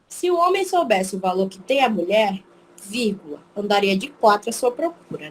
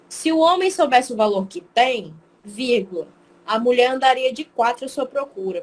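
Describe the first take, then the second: First: The break comes after the word 'mulher'. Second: The break comes after the word 'tem'.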